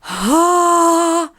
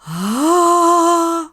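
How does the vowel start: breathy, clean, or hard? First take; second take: breathy; breathy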